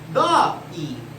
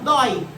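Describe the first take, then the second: First: The word is split into two separate syllables. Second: The word is said as one single syllable. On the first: The speaker calls it wrong. "Você não faz assim, ó" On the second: The speaker calls it right. "você fala dói"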